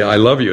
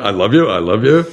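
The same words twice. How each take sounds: First: Said in the usual way. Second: Lightly voiced parrot repeating it back; a hint of a parrot parroting; parrot echo. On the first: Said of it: "You say". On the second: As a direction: echo the words like a toy parrot. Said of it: "and it comes back".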